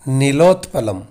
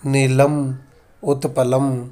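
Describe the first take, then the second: First: The parts are joined into one word. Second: The parts are said separately, split apart. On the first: The speaker calls it right. "संधि कर्म करके ही उच्चारित करना होगा" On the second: The speaker calls it wrong. "इस तरह से नहीं बोल सकते"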